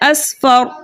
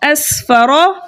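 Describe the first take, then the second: First: The word ends on a consonant. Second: The word ends with a short vowel. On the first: The reader stops at this word. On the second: The reading continues without stopping.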